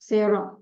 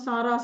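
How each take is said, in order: First: The first vowel is an 'eh' sound. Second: The first vowel is an open 'ah' sound. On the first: This is how native speakers say the name. "Native speakers பண்ற videos பார்த்தீங்கன்னா சேரான்னு தான் சொல்லுவாங்க" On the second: This is how local speakers usually say the name. "நம்ம சாரா சாரான்னு சொல்லுவோம்"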